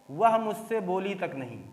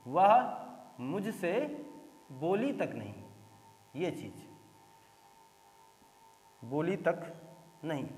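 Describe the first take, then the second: First: Said in the usual way. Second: "वह मुझसे बोली तक नहीं" split by pauses, falling softer to a hush; word by word stress. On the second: Shown as a demonstration. Teacher showing pressure on "तक" to the class. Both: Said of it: "pressure.".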